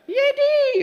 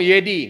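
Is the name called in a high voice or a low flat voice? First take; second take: high; low flat. First: The name is called in a high voice. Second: The name is called in a low flat voice. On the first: The call carries far and is heard. "wah kedengaran" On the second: The call does not carry and is not heard. "nggak kedengaran sore, lain suaranya"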